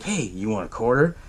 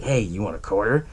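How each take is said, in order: First: Lower, softer creepy stranger voice; mock creepy stranger, lower and hushed; creepy offer. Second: Mock creepy stranger, lower and hushed; creepy offer. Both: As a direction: offer the quarter with a sly creepy lilt. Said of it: "kinda creepy the way how he did it".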